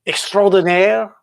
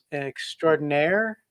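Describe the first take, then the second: First: Put-on French accent on the word; mock-French flourish. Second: Said in the usual way. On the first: Shown as a demonstration. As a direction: say it as a Frenchman would, stretched out. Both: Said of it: "in my French accent".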